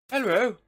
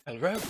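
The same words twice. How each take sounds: First: High, loud, insistent call. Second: Said in the usual way. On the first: Acted. Calling through the door for a reply, loud and high. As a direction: call harder for an answer.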